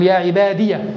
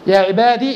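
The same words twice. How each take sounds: First: The final ya carries a vowel, ending in ya. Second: The final ya is silent, ending in long ee. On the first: "هنا جاءت الياء مفتوحة" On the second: "فهنا جاءت بالإسكان"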